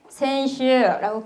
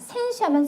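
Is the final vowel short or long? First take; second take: long; short. First: The final vowel is drawn out long. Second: The final vowel is short. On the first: It means last week. The speaker calls it right. "센슈라고 끌어줘야 돼요" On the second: It means an athlete. The speaker calls it wrong. "센슈하면 선수가 되기 때문에"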